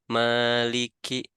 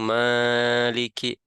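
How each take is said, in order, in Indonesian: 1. Vokal pertama ditahan selama dua ketukan. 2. Vokal pertama dipanjangkan lebih dari dua ketukan. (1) "Maliki seperti itu" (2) "ataupun lebih panjang"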